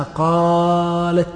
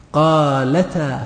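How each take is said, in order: First: Long held aa in قالت, closed on a bare t; original form with sukun. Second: Slow, stretched قالتا ending in open "taa"; fatha on the ta. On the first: Teacher showing the original word, قالت drawn out and ending in silent-vowel t. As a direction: stretch قالت, then stop on a vowelless t. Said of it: "هي أصلها قالت". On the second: Teacher showing the ta moved by fatha, قالتا drawn out as "qaalataa". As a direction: let the t of قالتا open into a long a. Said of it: "بالفتح". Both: Shown as a demonstration.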